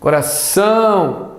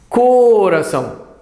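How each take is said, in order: First: The last syllable's vowel is stretched out. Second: The first syllable's vowel is stretched out. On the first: The speaker calls it right. "Será que esse outro A aqui?" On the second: The speaker calls it wrong. "Acho que é o O. Ó"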